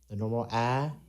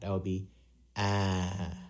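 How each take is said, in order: First: The pitch stays level and ordinary. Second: The pitch goes downhill to low. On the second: "when we lower pitch that, um, or downhill that"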